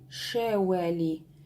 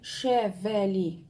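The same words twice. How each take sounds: First: The middle consonant is a w made with lips only. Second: The middle consonant is a v with teeth on lip. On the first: The speaker calls it right. "мы говорим шевели. Это близко к английскому звуку W" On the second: The speaker calls it wrong. "Мы не говорим шевели"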